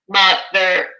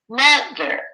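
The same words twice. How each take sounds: First: Both syllables are said at the same level pitch. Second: The first syllable is higher, longer and louder. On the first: The speaker calls it wrong. "We don't say mother, mother, right? It's not at the same pitch" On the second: The speaker calls it right. "It jumps up slightly"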